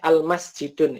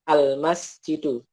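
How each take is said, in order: First: The word ends with an added n sound. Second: The word ends on a bare vowel, no n. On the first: The speaker calls it wrong. "Tidak boleh al-masjidun, itu tidak boleh" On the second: The speaker calls it right. "Yang benar adalah al-masjidu"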